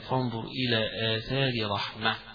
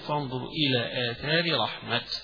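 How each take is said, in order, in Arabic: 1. الكلمة الأخيرة تنتهي بصوت h. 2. الكلمة الأخيرة تنتهي بصوت t. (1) "في الوقف يقفون بالهاء" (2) "يقفون بالتاء"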